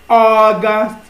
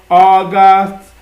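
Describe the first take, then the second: Both takes have the same delivery.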